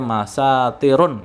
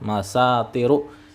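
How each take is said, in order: First: The word ends with an added n sound. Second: The word ends on a vowel without n. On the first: The speaker calls it wrong. "nggak boleh masa tirun nggak boleh" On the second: The speaker calls it right. "tidak boleh dibaca tanwin"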